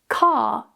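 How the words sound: The R is dropped after a long vowel. "car is pronounced without the R"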